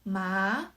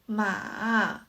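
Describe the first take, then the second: First: The pitch rises from middle to high. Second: The pitch falls first and then rises. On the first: "The second tone is" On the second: "The third tone is"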